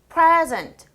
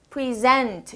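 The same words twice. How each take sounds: First: It is stressed the way the noun is. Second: It is stressed the way the verb is. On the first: It names a thing. "앞에 present" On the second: It names an action. "동사 present"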